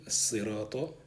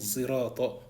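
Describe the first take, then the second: First: The word begins with an emphatic S sound. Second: The word begins with a Z sound. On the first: "avec Sad" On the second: "il le lit avec Z"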